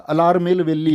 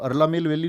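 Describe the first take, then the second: First: The first word is said as 'alar'. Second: The first word is said as 'arla'. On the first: The speaker calls it right. "अलार मेल वेली होता है" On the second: The speaker calls it wrong. "दरअसल में वो अरला मेल वेली नहीं होता"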